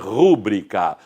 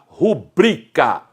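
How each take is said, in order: First: The stress is on the first syllable. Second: The stress is on the second syllable. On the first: The speaker calls it wrong. "não se deve pronunciar rúbrica" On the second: The speaker calls it right. "Esta é a forma adequada de se pronunciar"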